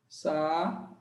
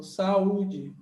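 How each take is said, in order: First: "Sa-u-de" said in three separate syllables, a pause between each; split into syllables. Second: Said in the usual way. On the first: Shown as a demonstration. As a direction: spell out "Sa-u-de" syllable by syllable, U on its own. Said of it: "Sa-u-de". ("Sa-u-de" separado em três sílabas, com pausas) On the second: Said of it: "Por exemplo".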